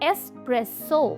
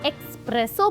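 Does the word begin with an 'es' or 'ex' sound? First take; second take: es; ex. First: It begins with an 'es' sound, no k. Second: It begins with an 'ex' sound, adding k. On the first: The speaker calls it right. "इसकी सही pronunciation है" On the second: The speaker calls it wrong. "That's incorrect"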